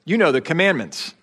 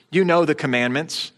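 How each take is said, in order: First: Said in the usual way. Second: "you" pushed with a small rise, a little shove; a touch of shove on "you". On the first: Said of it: "hard to know how to put the emphasis on that". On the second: Shown as a demonstration. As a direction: lean into "you" as a mild challenge. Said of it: "a little bit of shove in his voice".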